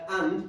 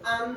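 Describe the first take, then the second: First: The final d is dropped, Caribbean style. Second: The word ends with a clear d sound.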